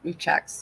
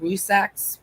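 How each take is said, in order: First: The middle consonant is a ch sound. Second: The middle consonant is a z sound. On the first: The speaker calls it wrong. "I always try to put the checks in there" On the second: The speaker calls it right. "it's more of a Z Rusaks"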